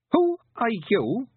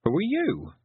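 First: High, slow, imperious demand; contemptuous boy. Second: High-pitched quick challenge; girl's retort. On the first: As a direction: ask it haughtily, high and drawn out. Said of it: "He made it sound like". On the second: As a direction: fire the question straight back, pitched up. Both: A narrator's reading.

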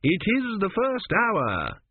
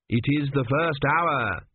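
First: Higher, slower, helpless repetition; repeated by rote. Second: Slow, lightly voiced fussy priest; a hint of a pompous court priest; priest Kumi. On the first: Acted. Priest repeating himself helplessly to the stubborn queen. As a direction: say it again, stuck and lost. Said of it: "he repeated". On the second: Priest reciting the day's duties to the queen, slow and formal.

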